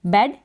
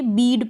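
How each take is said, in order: First: बेड with a short e sound; correct short vowel. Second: बीड with a long ee, the wrong way; wrong vowel. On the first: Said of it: "क्या पढ़ेंगे?". (सही उच्चारण, छोटा ए) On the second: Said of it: "नहीं, बेड पढ़ेंगे". (गलत उच्चारण, लंबी ई) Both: Shown as a demonstration.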